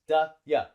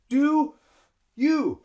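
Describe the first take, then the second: First: Both words are quick, with short reduced vowels. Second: Both words are slow, with long full vowels. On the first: The speaker calls it right. "that's fast" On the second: The speaker calls it wrong. "I have to breathe two times"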